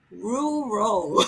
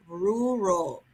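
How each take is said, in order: First: Rural tried again, still coming out ruro; second try at rural. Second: Rural slurred as ruro, the r sounds swallowed; struggling to get out Rural, it comes out ruro; mispronounced rural. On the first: Having another go at saying Rural. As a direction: another go at Rural, just as tangled. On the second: Trying to say Rural while admitting she can't. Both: Shown as a demonstration. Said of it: "I cannot say that word".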